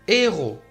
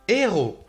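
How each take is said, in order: Both takes have the same delivery.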